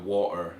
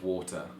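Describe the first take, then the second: First: The middle T is a glottal stop. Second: The middle T is a clear T.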